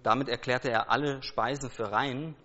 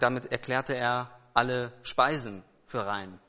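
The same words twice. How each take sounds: First: The word Speisen carries no special stress. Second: The word Speisen carries strong stress. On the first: Jesus declared all foods clean. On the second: Only foods, not everything taken in, were declared clean.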